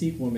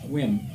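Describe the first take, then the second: First: The name is said with two syllables. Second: The name is said with one syllable. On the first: The speaker calls it wrong. "It's not pronounced Sequim" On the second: The speaker calls it right. "It's pronounced squim"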